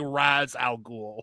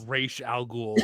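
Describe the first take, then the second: First: The first word ends in a z sound. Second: The first word ends in an sh sound. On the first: The speaker calls it wrong. "willful American arrogance" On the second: The speaker calls it right. "it's pronounced Raish Al Ghul"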